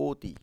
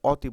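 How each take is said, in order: First: "অতি" said o-ti, with a rounded close o; closed o sound. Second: "অতি" said ɔ-ti, with a loud open ɔ; open ɔ sound. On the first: Teacher giving pupils the spoken form, closed o. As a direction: round the first vowel of "অতি" to o. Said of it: "ও এর মতো". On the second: Teacher showing pupils what is not said, open ɔ. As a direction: hit "অতি" with an open ɔ, as written. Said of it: "আমরা অতি বলি না". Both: Shown as a demonstration.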